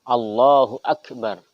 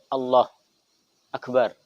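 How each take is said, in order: First: The two words run together without pause. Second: A brief pause separates the two words. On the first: The speaker calls it right. "harus sambung" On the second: The speaker calls it wrong. "Atau pendek"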